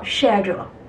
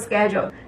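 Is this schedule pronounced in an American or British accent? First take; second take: British; American. First: The word is said in a British accent. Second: The word is said in an American accent. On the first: "在英音里面它是叫schedule" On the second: "平时大家都会说schedule"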